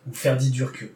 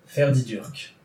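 First: Ferdidurke said with an added final e sound after the k. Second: Ferdidurk said with a bare final k and no vowel after it. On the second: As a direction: end Ferdidurk crisply on the k. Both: Shown as a demonstration.

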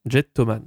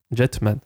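First: Jettoman with an extra o syllable, mock Japanese style; playful Japanese accent on Jettoman. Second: Said in the usual way. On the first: Shown as a demonstration. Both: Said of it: "Excusez mon accent japonais".

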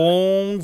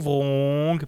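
First: Wrong with a rounded English r, punched higher and louder; Wrong given a hammed-up English sound, louder; English accent. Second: Said in the usual way. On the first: Shown as a demonstration. Joking retake of the title in a mock English accent. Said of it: "j'ai un accent anglais".

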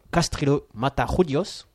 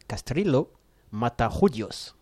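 First: Careful Spanish accent on "Castrillo Matajudios", a bit slow. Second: "Castrillo" then a pause, "Matajudios" very slow in a Spanish accent; Spanish accent, repeated. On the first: Host proudly gives co-hosts the name, Spanish accent. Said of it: "alors je vais vous le faire en espagnol". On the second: Host repeats the name for co-hosts, slow Spanish accent. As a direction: spell it out by ear in Spanish, word by word. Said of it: "Je répète". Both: Shown as a demonstration.

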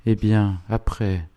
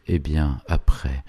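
First: Curt "Eh bien, après?", higher and clipped off; dry and harsh. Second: Said in the usual way. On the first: A narrator's reading. Proud old lady cutting off the priest, dry and harsh. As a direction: cut him short, dry and sharp. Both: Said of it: "la sécheresse et l'âpreté".

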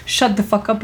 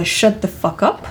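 First: Said in the usual way. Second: Slow example. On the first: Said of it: "là, on a vraiment l'idée". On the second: Shown as a demonstration. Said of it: "L'action que j'ai besoin".

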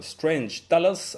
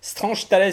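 First: Strange Talos said the French way, Tales as Talos; a clumsy French reading of Strange Talos, slow; bad English accent. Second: Fix the title, Strange Tales lifted and stretched; corrected title. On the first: Host reading the comic title with his accent, slow Frenchified Strange Talos. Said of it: "chacun appréciera une fois de plus mon accent". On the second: Host repeats the corrected title after his guest, careful Strange Tales. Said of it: "tu voulais dire Strange Tales?". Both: Real, not acted.

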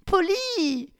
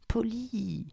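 First: Very high, shocked cry of his name; shocked exclamation. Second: Soft, higher pleading voice; pleading low. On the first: Victoria cries out in shock as Polly stops the car. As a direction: cry out in alarm. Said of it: "s'exclama Victoria". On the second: Victoria quietly pleads with Polly, soft and higher. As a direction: plead quietly, under the breath. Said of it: "plaida-t-elle à voix basse". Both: Acted.

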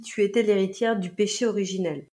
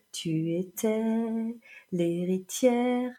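First: Said in the usual way. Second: Slow, drawn-out mimicked lyric with a long gap; imitating lilting singer. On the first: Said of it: "il dit". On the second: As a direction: stretch each phrase out as the singer does, pausing between. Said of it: "raccrocher les wagons entre deux phrases". (imitation lancinante, syllabes étirées)

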